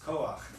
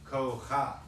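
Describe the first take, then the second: First: The 'a' vowel comes before the final 'ch'. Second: The 'a' vowel comes after the final 'ch'. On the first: The speaker calls it right. "It's koach" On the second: The speaker calls it wrong. "It looks like it should say kocha"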